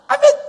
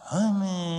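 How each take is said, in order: First: It is said strongly and with force. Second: It is said weakly and without force.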